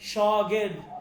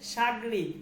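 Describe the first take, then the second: First: The word begins with an 'sh' sound. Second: The word begins with an 's' sound. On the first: This is the original Persian pronunciation. "উচ্চারণটা কি, শগির্দ।" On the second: This is how the word is said in Bengali. "যেটাকে আমরা বাংলায় সাগরিদ বলি"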